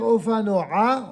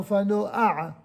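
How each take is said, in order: First: The a-vowel comes after the final consonant. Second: The a-vowel comes before the final consonant. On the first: The speaker calls it wrong. "Au lieu de dire" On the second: The speaker calls it right. "on dira"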